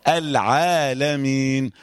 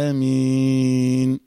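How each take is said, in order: First: Slow "العالمين" with a clean ayn; careful recited "العالمين"; measured clear ayn. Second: "العالمين" with the alef dragged out; monotone, over-extended "العالمين"; overlong alef. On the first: Shown as a demonstration. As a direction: sound the ayn of "العالمين", alef kept measured. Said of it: "العين كده أهو". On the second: Retold or imitated. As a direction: stretch the "aa" of "العالمين" far too long on one note. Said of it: "ويقوم يطول قوي الألف".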